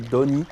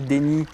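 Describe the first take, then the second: First: The vowel after the D sounds like 'oh'. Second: The vowel after the D sounds like 'ay'. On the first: The speaker calls it right. "en fait, c'est plutôt Doni" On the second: The speaker calls it wrong. "je dis souvent Déni"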